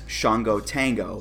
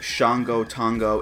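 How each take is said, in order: First: Shango is said so it does not rhyme. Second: Shango is said to rhyme with Tango. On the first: The speaker calls it right. "And that doesn't rhyme" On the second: The speaker calls it wrong. "It's not"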